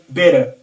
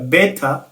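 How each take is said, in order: First: The middle consonant is a soft d-like tap. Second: The middle consonant is a crisp t. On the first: "bavuge better" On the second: "aho kuvuga better"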